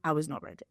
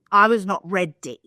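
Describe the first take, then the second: First: Quiet. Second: Punchy and loud; loud emphatic repeat; louder. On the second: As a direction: hit it harder the second time. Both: Shown as a demonstration.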